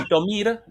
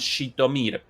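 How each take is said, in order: First: The name begins with an s-like sound. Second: The name begins with a sh sound. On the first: The name is read as if written in the Latin alphabet. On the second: This is how Russian speakers say the name.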